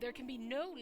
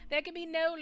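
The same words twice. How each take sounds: First: It is said in an ordinary speaking voice. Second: It is said in a put-on character voice. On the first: The speaker calls it wrong. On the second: The speaker calls it right.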